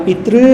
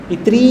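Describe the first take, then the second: Both takes have the same delivery.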